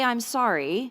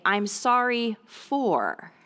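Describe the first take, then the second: First: Said in the usual way. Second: I'm sorry for, drawn out slowly; slow modelled apology. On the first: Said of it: "this is not a say". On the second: Shown as a demonstration. Parent teaching kids an apology script, slow and clear. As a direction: spell out the phrase slowly for parents. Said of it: "have them say".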